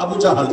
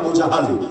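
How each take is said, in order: First: The second name is said with 'a' vowels. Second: The second name is said with 'a' vowels.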